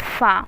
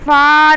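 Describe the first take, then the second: First: The sound is kept short without stretching. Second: The sound is drawn out for a long time. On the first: The speaker calls it right. "तो इसको इस तरह से बोलेंगे फ़ा" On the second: The speaker calls it wrong. "बहुत ज़्यादा फ़ा नहीं खींचना है, ये गलत है"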